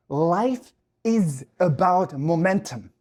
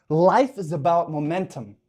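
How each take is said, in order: First: Each word slow and weighted; slow emphasis. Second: Said in the usual way. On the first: Shown as a demonstration. Telling viewers the key point, slow weighty emphasis. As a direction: drag it out so it sinks in. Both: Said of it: "repeated slower".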